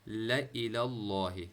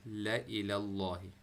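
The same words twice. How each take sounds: No difference in how they are said.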